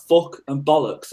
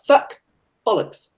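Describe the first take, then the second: First: FUCK and BOLLOCKS with Birmingham vowels, FUCK like "fook"; own Brummie pronunciation. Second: FUCK and BOLLOCKS in mock posh vowels, FUCK fronted like "feck"; imitated posh swearing. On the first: Shown as a demonstration. Comparing their swear words, Brummie FUCK and BOLLOCKS. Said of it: "I'm like". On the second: Imitating how she swears, posh FUCK and BOLLOCKS. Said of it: "and she's like".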